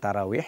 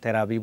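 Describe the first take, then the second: First: The middle consonant is a w sound. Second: The middle consonant is a b sound. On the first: This is the correct form of the word. The speaker calls it right. "শুদ্ধ শব্দটা" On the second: This is the common local way of saying it. The speaker calls it wrong. "বাংলাদেশের সিলেটি ভাষায় অনেক সময় তারাবি বলি"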